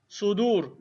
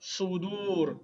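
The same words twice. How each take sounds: First: Said in the usual way. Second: Sudur with both vowels drawn out; teacher's lengthened Sudur for repeating; say-along model. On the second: Shown as a demonstration. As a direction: stretch Sudur so the class can join in. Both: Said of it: "Say with me".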